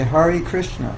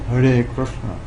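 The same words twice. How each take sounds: First: It is said with an American pronunciation. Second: It is said with a Sanskrit pronunciation. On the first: The speaker calls it wrong. "Americans who say Hare Krishna" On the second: The speaker calls it right. "It's actually Hare Krishna"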